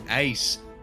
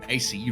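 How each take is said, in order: First: The name is said as one word. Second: The name is spelled out as letters. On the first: The speaker calls it wrong. "I keep calling them Ace" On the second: The speaker calls it right. "or A C rather"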